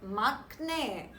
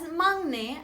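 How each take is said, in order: First: The first syllable ends in a k sound. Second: The first syllable ends in an ng sound. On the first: The speaker calls it wrong. "and not makne" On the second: The speaker calls it right. "it is pronounced as mangne"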